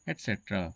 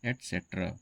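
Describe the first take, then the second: First: The word begins with an 'et' sound. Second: The same.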